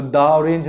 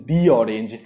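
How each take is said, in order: First: "the orange" with THE said as "daa"; slow "duh" on "the" in "the orange"; "the orange" as "duh orange", the mistaken way; wrong "duh" form. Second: "the orange" with THE said as "dee"; "the orange" as "dee orange", lower, the corrected way; long "dee" form. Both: Shown as a demonstration. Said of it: "so the orange नहीं".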